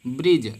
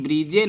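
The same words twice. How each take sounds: First: Said in the usual way. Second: ब्रिजे with a voiced final E, "brid-jay"; wrong spelled-out reading. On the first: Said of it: "ब्रिजे नहीं पढ़ते हैं". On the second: Shown as a demonstration. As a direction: add an "ay" syllable to the end of ब्रिजे. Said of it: "पुल में ब्रिजे नहीं पढ़ते".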